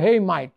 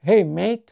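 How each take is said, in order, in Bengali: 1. 'mate' এর স্বরধ্বনিটি 'mite' এর মতো শোনায়। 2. 'mate' এর স্বরধ্বনিটি 'mate' এর মতো শোনায়। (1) "তারা বলবে হেই মাইট" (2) "আমেরিকাতে সেটাকে বলা হবে হেই মেট"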